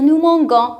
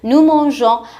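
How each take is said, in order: First: The g is hard, as in 'go'. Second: The g is soft, like a 'zh' sound. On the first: The speaker calls it wrong. "Si vous écrivez nous mangeons sans E, comme ça, on va dire nous mangeons. Alors, c'est faux" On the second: The speaker calls it right. "on ajoute le E pour ne pas prononcer le G, ga, on la prononce J"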